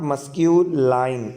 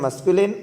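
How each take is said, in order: First: The last syllable sounds like 'line'. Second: The last syllable sounds like 'lin'. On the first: The speaker calls it wrong. "The right pronunciation of this word is not मस्क्यूलाइन" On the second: The speaker calls it right. "Right pronunciation इसका क्या है?"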